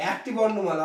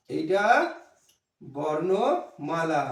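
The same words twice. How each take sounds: First: Said in the usual way. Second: বর্ণমালা stretched out very slowly, syllable by syllable, for the class to repeat; slow dictation of বর্ণমালা; slow drawn-out demo. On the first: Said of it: "খুব ভালো বলেছো". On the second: Shown as a demonstration. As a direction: draw out বর্ণমালা long and low. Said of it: "এটা কি?".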